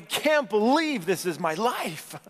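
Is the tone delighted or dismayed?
delighted. The voice sounds amazed and delighted. Life feels wonderful. "This is awesome"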